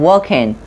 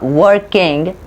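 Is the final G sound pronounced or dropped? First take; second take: dropped; pronounced. First: The word ends in -in without the G. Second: The word ends with a full -ing G sound. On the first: The speaker calls it right. "G oftenly removed when we speak" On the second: The speaker calls it wrong. "it's not become a uh"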